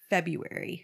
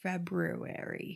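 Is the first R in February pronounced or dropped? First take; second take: dropped; pronounced. First: The first R is dropped. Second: The first R is clearly pronounced. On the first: "People say February. So why is there an R in there?" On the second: "I don't think that people say February"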